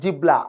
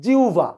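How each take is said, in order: First: The middle is said with a b then l sound. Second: The middle is said with a u then v sound. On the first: The speaker calls it wrong. "Not জিবলা" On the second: The speaker calls it right. "আদতে এটার উচ্চারণ কিন্তু জিউভা"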